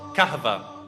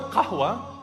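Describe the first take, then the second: First: The consonant after the h is a v sound. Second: The consonant after the h is a w sound. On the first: "the waw turns into a v" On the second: "So the word qahwa, they couldn't say qahwa"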